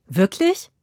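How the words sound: It sounds surprised and delighted.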